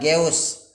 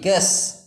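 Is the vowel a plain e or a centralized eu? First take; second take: centralized eu; plain e. First: The vowel is the centralized eu sound. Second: The vowel is a plain e sound. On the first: The speaker calls it wrong. "bukan geus" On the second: The speaker calls it right. "tapi ges"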